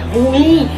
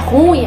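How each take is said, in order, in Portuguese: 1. A tônica está na última sílaba. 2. A tônica está na primeira sílaba. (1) "é ruim ... na oxítona, nesse in" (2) "a palavra não é ruim"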